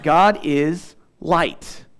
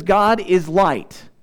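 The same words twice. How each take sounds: First: "God is light" drawn out very slowly, "God" hit hardest; slow emphatic close. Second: "God is light" slowed right down, each word weighted; emphatic God is light. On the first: Preacher sums up his point to the congregation, very slow and deliberate. Preacher repeats key phrase. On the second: Preacher stressing God is light to the congregation, slow and weighty. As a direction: lean hard on "God is light", slowly. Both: Acted.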